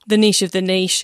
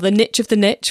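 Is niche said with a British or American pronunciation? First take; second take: British; American. First: Niche is said the British way, like neesh. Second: Niche is said the American way, like nitch.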